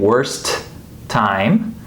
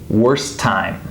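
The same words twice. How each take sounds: First: Both T sounds are released separately. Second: The two T sounds blend into one. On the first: The speaker calls it wrong. "instead of saying worst time" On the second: The speaker calls it right. "these T's kind of blend together"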